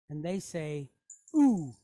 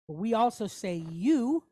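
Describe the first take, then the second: First: It is a pure 'oo' with no glide. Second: It sounds like 'you' with a y glide. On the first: This is the Spanish pronunciation. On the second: This is the English pronunciation.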